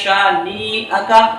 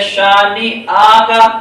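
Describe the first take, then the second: First: The second syllable is also drawn out long. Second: The third syllable is also drawn out long. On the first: "अगर किसी ने नून को खींच के पढ़ दिया" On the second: "गलत, तब भी गलत है।"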